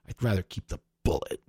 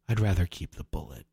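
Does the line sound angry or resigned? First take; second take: angry; resigned. First: It sounds angry and bitter, almost spitting. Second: It sounds resigned, even and controlled.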